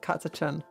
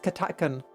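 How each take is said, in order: First: The middle consonant is a ch sound. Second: The middle consonant is a hard k sound. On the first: The speaker calls it wrong. "not Katachan" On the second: The speaker calls it right. "it's Katakan"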